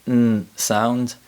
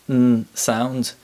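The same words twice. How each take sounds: No difference in how they are said.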